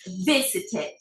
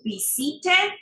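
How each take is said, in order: First: The stress is on the first syllable. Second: The stress is on a later syllable. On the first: The speaker calls it right. "es visited. El acento va en la primera sílaba" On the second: The speaker calls it wrong. "No decimos visited"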